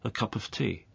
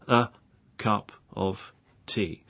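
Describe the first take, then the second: First: The words run together like one word. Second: Each word is said slowly and separately. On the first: "the normal way to say that is a cup of tea" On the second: "I'll say this very slowly to start with"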